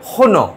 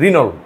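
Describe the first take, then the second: First: It starts with a throaty h-like sound. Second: It starts with a plain r and ends in l. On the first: This is how the French say it. "ওরা বলবে কিভাবে" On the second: This is how people in India say it. "India এটা উচ্চারণ করলে কি জানেন"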